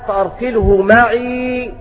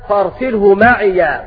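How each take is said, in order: First: The last word ends in a long -i. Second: The last word ends in -ya. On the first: "بسكون الياء فأرسله معي هكذا" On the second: "بفتح الياء"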